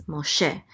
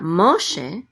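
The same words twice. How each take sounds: First: "Moshe" stressed on its final "she"; mo-SHE, short "Mo", weight at the end of "Moshe"; stress on last syllable. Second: "Moshe" stressed on MO, loud and drawn out; MO-she, weight on "Mo" in "Moshe"; stress on first syllable. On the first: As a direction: put the accent on SHE in "Moshe". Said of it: "The accent is on she". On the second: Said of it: "So it's not Moshe". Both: Shown as a demonstration.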